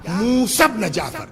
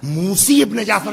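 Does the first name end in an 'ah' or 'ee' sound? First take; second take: ah; ee. First: The first name ends in an 'ah' sound. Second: The first name ends in an 'ee' sound. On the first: The speaker calls it right. "शुद्ध सही तलफुज क्या है? मूसा" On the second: The speaker calls it wrong. "मूसी इब्न जाफर नहीं है"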